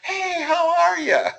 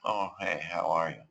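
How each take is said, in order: First: The greeting sounds overdone and fake. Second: The greeting sounds flat and low in energy.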